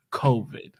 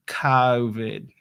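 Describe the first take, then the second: First: Said in the usual way. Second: Mock Boston accent on COVID, first vowel broadened. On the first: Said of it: "let's focus just on the word". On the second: Shown as a demonstration. Coach demonstrates COVID in a mock Boston accent. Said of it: "talking like a Bostoner".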